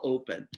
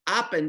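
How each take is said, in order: First: The first vowel is long, as in 'hope'. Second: The first vowel is short, as in 'hop'. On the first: The speaker calls it right. "I change and I tag the vowel" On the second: The speaker calls it wrong. "open doesn't make sense"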